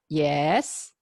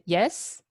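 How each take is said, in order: First: The pitch dips low, then rises. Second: The pitch rises steadily upward. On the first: The speaker is unsure who is calling. "You are a little bit skeptical ... That's kind of like third tone" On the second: The caller is who the speaker expected. "So that's kind of like second tone"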